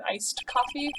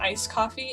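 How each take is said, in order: First: The first word ends with a d sound. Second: The first word ends without a d sound. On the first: The speaker calls it right. "It's supposed to be iced" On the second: The speaker calls it wrong. "they're saying"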